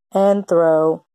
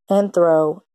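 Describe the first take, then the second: No difference in how they are said.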